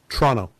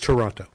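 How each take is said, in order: First: The name is said the way locals say it. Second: The name is said the way outsiders say it.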